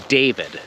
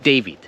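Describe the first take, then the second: First: David ending on a clear, firm D; David, both D sounds equal; strong final D. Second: David with the last D dropped, sounding like Davi; dropped final D. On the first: Shown as a demonstration. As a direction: sound the last D of David fully. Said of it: "an example of my name". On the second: Retold or imitated. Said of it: "heard people calling me".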